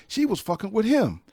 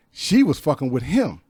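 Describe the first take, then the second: First: Much higher, incredulous repeat; amazed retelling; amazed disbelief. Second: Said in the usual way. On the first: Real, not acted. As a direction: marvel at the coincidence. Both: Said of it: "this is how small the world is".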